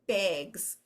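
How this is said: The vowel has a Minnesota accent. The speaker calls it wrong. "in Minnesota, Wisconsin, probably some of the Canadian provinces, we say bags"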